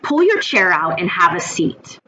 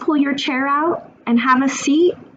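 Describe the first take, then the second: First: It is said harshly and aggressively. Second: It is said tentatively, like a question. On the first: It is a voice nobody wants to listen to. "a voice that's aggressive and harsh" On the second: It invites the child to say no or challenge. "It's like a question"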